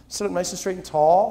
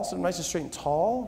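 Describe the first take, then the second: First: Said in the usual way. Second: Same instruction, dropped much softer; quiet follow-up command; softer repeat. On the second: Acted. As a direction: ease off and say it again gently. Instruction repeated more softly.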